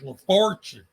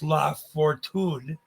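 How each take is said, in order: First: The name is said with a local American pronunciation. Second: The name is said with a Spanish-style pronunciation. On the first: This is how the locals say it. "everyone in this part of the country says La Fortune" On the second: This is how an outsider would say it. "with an English accent of maybe Castilian in nature"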